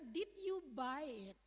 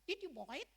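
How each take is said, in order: First: Buy is said with a plain vowel, like bye. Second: Buy is said with an Australian vowel, like boy.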